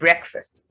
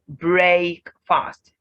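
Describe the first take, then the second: First: The second syllable has a reduced vowel. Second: The second syllable has a full vowel. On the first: The speaker calls it right. "the A in fast here is been reduced to the schwa sound" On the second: The speaker calls it wrong. "you must have been pronouncing the word as break fast. But no"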